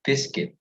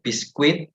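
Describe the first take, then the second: First: Biscuit said bis-kit, U silent; right pronunciation. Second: Biscuit with a U sound, bis-kwit; wrong pronunciation. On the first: Teacher models the right way: biscuit, bis-kit. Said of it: "but biscuit". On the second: Teacher shows how students say biscuit wrong: bis-kwit. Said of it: "It's not biscuit". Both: Shown as a demonstration.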